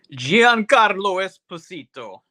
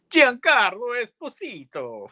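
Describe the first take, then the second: First: Giancarlo Esposito rolled out slow and high in an Italian accent. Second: Put-on Giancarlo Esposito announced much higher, Italian accent, big trailer flourish; Italian accent, credits style. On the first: Shown as a demonstration. Telling a friend about the movie's cast, in an Italian accent. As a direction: savor Giancarlo Esposito like an Italian would, slowly. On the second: Mimicking how the credits name the star, in a hammed-up Italian accent. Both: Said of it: "I'm gonna say it with that Italian accent".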